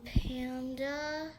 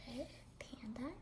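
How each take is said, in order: First: Said in the usual way. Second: Panda said again in a whisper. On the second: Shown as a demonstration. Whispering the animal's name to the friend. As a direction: hush it right down.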